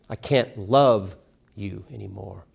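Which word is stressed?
love. The stress is on love.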